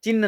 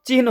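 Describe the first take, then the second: First: चिन्ह said as "chinn", no h heard; wrong pronunciation. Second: चिन्ह said as "chihn", h before n; correct pronunciation. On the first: Teacher rejecting the common mistake, चिन्ह as "chinn". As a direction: drop the h and lengthen the n in चिन्ह. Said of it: "नहीं होता है". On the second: Teacher showing students the right word, चिन्ह as "chihn". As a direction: sound the h ahead of the n in चिन्ह. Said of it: "चिन्ह नहीं होता है". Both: Shown as a demonstration.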